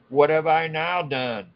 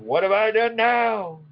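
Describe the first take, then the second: First: The line is read in a flat, plain way. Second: The line is read with lively, strong expression. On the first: The speaker calls it wrong. "Maybe I should say that with more expression" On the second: The speaker calls it right. "with more expression"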